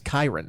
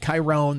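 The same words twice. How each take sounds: First: The stress is on the first syllable. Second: The stress is on the second syllable. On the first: The speaker calls it right. "It's Kyron, like Byron" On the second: The speaker calls it wrong. "It's not like the emphasis on the second s- syllable. It's not Chiron"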